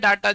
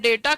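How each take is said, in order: First: The first vowel sounds like 'ah'. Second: The first vowel sounds like 'ay'. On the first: "कभी बोलते हैं डाटा" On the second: "कभी कभी हम लोग बोलते हैं डेटा"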